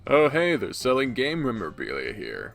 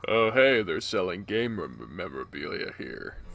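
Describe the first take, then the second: First: The put-on character voice holds steady throughout. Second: The put-on character voice breaks and sounds strained. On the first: The speaker calls it right. "There you go" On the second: The speaker calls it wrong. "Fucking Christ. Let me get some water"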